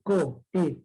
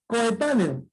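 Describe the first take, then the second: First: "Coetáneo" broken up as co, e, tá, ne, o; five separate beats in "Coetáneo"; split into syllables. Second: Said in the usual way. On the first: Shown as a demonstration. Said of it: "cinco sílabas". ("Coetáneo" silabeado: co, e, tá, ne, o)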